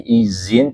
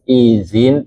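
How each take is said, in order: First: The middle consonant is a plain z sound. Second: The middle consonant is a soft th sound. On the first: This is the changed everyday Indonesian pronunciation. "izin diucapkan jadi izin" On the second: This is the original Arabic pronunciation. "izin aslinya menggunakan zal"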